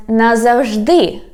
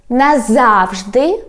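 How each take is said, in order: First: "назавжди" stressed on final ДИ, falling; stress on last syllable. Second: Slow "назавжди", stressed on ЗАВ, rising end; stress on middle syllable. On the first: Teacher giving the second variant, "назавжди" stressed on ДИ. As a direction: save the stress for the end of "назавжди". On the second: Teacher giving the first variant, "назавжди" stressed on ЗАВ. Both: Shown as a demonstration. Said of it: "when we change the stress".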